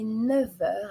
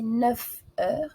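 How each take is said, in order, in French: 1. Les mots sont reliés par un son V. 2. Les mots sont reliés par un son F. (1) "avec une liaison en V" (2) "On ne va pas prononcer"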